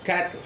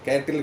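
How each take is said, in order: First: No extra vowel sound follows the t. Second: An extra vowel sound follows the t. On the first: The speaker calls it right. "அது கேட்டில் கிடையாது" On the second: The speaker calls it wrong. "நீங்கள் வந்து கே கேட்டில்னு சொல்கிறீங்க"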